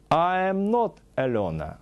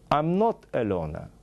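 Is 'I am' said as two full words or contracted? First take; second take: full; contracted. First: I am is said as two full words. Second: I am is contracted into one syllable.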